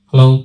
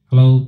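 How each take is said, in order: First: The voice has boosted high treble frequencies. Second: The voice has boosted low bass frequencies. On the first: "ট্রিবেলকে আমি দেখছেন boost করে দেখাচ্ছি" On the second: "আমি দেখুন বেসকে boost করছি"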